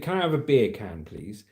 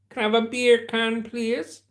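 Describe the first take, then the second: First: It is said in the speaker's usual accent. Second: It is said in a Jamaican accent.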